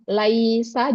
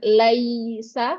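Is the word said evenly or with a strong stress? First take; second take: evenly; strong stress. First: The word is said evenly, without extra stress. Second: The word is said with a strong stress. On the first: The speaker calls it right. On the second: The speaker calls it wrong.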